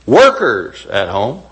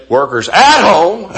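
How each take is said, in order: First: "Workers" slow and punched, "at home" lighter; stress on WORKERS. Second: "at home" lifted and louder, "workers" light; stress on AT HOME. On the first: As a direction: lean hard on "Workers", let "at home" trail. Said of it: "notice the way I emphasize that". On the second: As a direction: punch "at home" as the wrong reading. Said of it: "I didn't say workers at home". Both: Shown as a demonstration.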